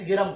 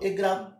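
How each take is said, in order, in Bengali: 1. e স্বরধ্বনিটি g ধ্বনির পরে আসে। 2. e স্বরধ্বনিটি g ধ্বনির আগে আসে। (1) "নাকি গেরাম করো?" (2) "তুমি এটা কখনোই এরকম উচ্চারণ কি করো"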